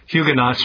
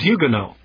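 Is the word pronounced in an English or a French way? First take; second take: English; French. First: The word is said with an English pronunciation. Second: The word is said with a French pronunciation. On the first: "we usually call them" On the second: "the French would pronounce that"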